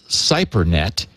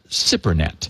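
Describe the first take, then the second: First: The first syllable is not said as 'sip'. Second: The first syllable is said as 'sip'. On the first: The speaker calls it wrong. "I was calling it CyberNet" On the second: The speaker calls it right. "it's pronounced S I P, S I P hyphen P E R hyphen N E T"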